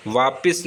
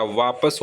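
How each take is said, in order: First: वापिस said as "vaapis", with i; wrong pronunciation. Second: वापस said as "vaapas", with a; correct pronunciation. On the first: Teacher showing the mistaken वापिस, said as "vaapis". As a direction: put an i in the last syllable of वापिस. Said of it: "वापिस नहीं होता". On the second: Teacher correcting to वापस, pronounced "vaapas". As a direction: put a short a in the last syllable of वापस. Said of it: "वापस होता है". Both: Shown as a demonstration.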